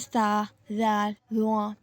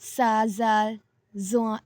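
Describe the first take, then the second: First: The letters are said with an Arabic accent. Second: The letters are said with an Urdu-style accent. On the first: The speaker calls it right. "अरबी लहजे में" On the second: The speaker calls it wrong. "ऐसे नहीं पढ़ना, ये अरबी लहजा नहीं है"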